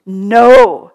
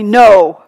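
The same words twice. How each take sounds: First: Loud, forceful no; much louder forceful no. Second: Loud, firm no; much louder emphatic no. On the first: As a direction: throw the word down hard. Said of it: "he said very forcefully". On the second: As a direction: slam the word down. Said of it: "he said quite emphatically". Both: Retold or imitated.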